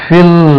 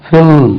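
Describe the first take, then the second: No difference in how they are said.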